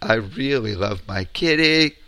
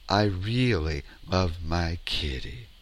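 First: It ends off the home note, sounding worried. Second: It ends settled on the speaker's home note.

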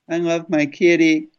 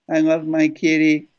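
Both takes have the same delivery.

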